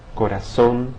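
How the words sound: The z is pronounced like an s. "always represents the S sound in Latin American dialects"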